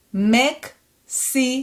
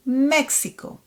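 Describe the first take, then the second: First: Mexico slowly as MEK, SI, KO; "Mexico" in three separate beats; syllable by syllable. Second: Mexico joined as one word; fluent Hebrew "Mexico"; fluent reading. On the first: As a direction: sound out "Mexico" with gaps between syllables. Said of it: "read it one more time". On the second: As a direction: say "Mexico" run together with pure vowels. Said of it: "more fluently". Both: Shown as a demonstration.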